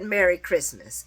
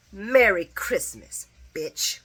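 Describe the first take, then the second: First: Said in the usual way. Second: Drawn-out, mocking holiday goodbye; a slow, cutting send-off that spits the last word; slow sassy farewell. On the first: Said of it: "She said". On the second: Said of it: "And then she said".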